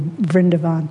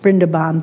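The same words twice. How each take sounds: First: The name begins with a V sound. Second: The name begins with a B sound. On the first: This is the Hindi form of the name. "they use more of the Hindi" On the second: This is the Bengali form of the name. "The more Bengali pronunciation which Master uses is with the B's"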